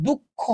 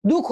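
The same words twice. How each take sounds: First: দুঃখ with the kh doubled and held, dukkho; with bisarga. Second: দুঃখ with a single short kh, dukho; without bisarga. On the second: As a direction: say দুঃখ plainly as dukho, no doubling. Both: Shown as a demonstration. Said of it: "দুঃখ আর দুঃখ তো same উচ্চারণ নয়".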